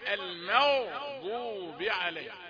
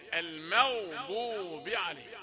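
The two takes are said the same way.

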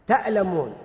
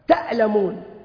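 No difference in how they are said.

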